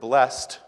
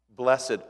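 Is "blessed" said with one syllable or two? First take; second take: one; two. First: The word is said as one syllable. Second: The word is said as two syllables. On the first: It names an action someone does. "if you say it that way, is a verb" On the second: It describes a state someone is in. "you're using it as an adjective"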